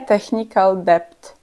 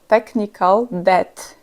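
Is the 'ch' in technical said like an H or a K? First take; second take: H; K. First: The 'ch' in technical sounds like an H. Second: The 'ch' in technical sounds like a K. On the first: The speaker calls it wrong. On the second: The speaker calls it right. "Poprawna wymowa to"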